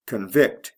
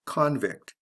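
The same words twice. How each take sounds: First: "Convict" as the verb con-VICT; stress on second syllable. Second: "convict" as the noun CON-vict, open O; stress on first syllable. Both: Shown as a demonstration. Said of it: "Notice the stress changes in the same way".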